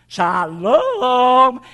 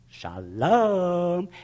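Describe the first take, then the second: First: It is shouted out loudly. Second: It is said at normal, quiet volume.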